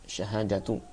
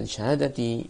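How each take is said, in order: First: The word ends with the vowel u. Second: The word ends with the vowel i. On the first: "Atau bisa kita baca syahadatu" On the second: "semuanya di kasrah"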